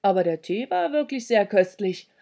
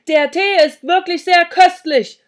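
First: Said in the usual way. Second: Loud, high shout; over-loud, hearty holler; bellowed compliment. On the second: A narrator's reading. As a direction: shout praise to a hard-of-hearing hostess. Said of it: "brüllte ich".

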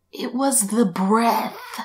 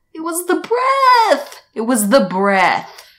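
First: Said in the usual way. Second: Higher, much louder, slowly stressed; emphatic realization. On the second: Retold or imitated. Vlogger insisting to viewers it was the breath, emphatic. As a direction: hammer home the discovery. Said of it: "repeats with rising emphasis".

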